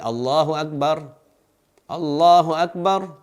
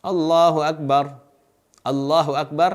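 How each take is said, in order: First: Each takbir is said separately with a pause. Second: The same.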